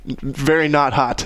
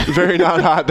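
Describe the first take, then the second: First: Very not hot said slowly and evenly. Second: Very not hot punched a little louder; emphatic. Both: Shown as a demonstration.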